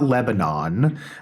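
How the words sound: It is said the West Coast way.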